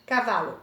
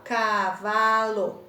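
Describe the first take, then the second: First: Said in the usual way. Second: CA - VA - LO, each syllable stretched; teacher sounding out CA-VA-LO; split into syllables. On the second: Shown as a demonstration. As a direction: say cavalo in three slow beats, CA, VA, LO. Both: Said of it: "Tem três pedacinhos".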